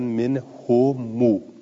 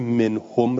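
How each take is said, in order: First: The final m runs into a long u vowel. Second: The word ends on a bare, unvoweled m.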